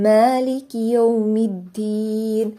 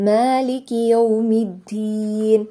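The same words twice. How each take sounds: Both takes have the same delivery.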